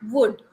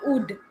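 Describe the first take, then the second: First: The word begins with a w sound. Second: The word begins with an oo vowel. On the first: The speaker calls it right. "It will start with wa" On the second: The speaker calls it wrong. "This is not would. It will not start with the oo sound"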